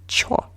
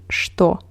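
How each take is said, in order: First: The word is said in its reduced form 'cho'. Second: The word is said in its full form 'shto'. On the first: The speaker sounds casual and speaks quickly. The speaker calls it wrong. "and not чё" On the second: The speaker sounds educated and well-mannered. The speaker calls it right. "you better say что"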